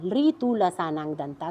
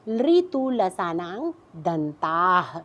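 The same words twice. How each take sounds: First: Said in the usual way. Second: लृतु लसानांग दंताः spelled out slowly, syllable by syllable; slow sutra recitation. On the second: Shown as a demonstration. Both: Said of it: "तो आप सूत्र पे आ जाइए सामने".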